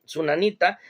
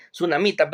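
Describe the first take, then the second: First: Sunanita said with an n, a quick slip; slip of the tongue. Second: Sunamita said with a clear m in the middle; corrected name. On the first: Preacher stumbles on the name, says Sunanita with n. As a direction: let Sunanita come out with n before the correction. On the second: Preacher corrects himself to Sunamita with m. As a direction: fix it to Sunamita with m. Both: Real, not acted. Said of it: "perdón".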